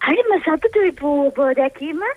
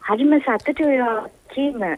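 First: It is said with more excitement. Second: It is said with little excitement.

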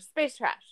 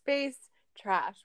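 First: The phrase is said quickly, run together. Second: The phrase is said at a normal, slower pace. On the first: This is the name of their own show. "We have to say it faster" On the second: This is the name of another show. "We're not Space Trash"

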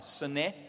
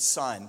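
First: The word is said as two syllables. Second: The word is said as one syllable. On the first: The speaker calls it right. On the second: The speaker calls it wrong.

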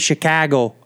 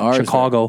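First: The stressed middle vowel sounds like 'ah'. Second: The stressed middle vowel sounds like 'oh'. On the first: "The emphasis is all on the ah" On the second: "it sounds like oh there"

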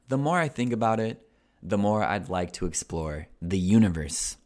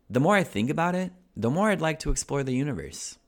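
First: It is read at a slower pace. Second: It is read at a faster pace.

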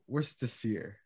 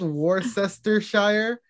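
First: Several written syllables are dropped from the word. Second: Every written syllable of the word is sounded out. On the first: "but it's pronounced" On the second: "it's spelled Worcestershire"

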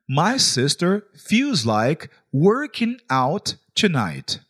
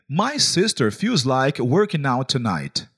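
First: It is said slowly. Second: It is said at normal speed.

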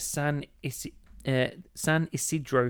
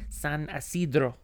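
First: It is said in a plain English accent. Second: It is said in an exaggerated Spanish accent.

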